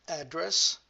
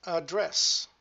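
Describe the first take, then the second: First: "Address" loud, stressed AD-dress; noun-style "Address" with front stress, louder and higher; stress on first syllable. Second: "address" loud, stressed ad-DRESS; verb-style "address" with end stress, louder and higher; stress on second syllable. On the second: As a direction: hit the last syllable of "address". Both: Shown as a demonstration. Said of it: "different position of the stress".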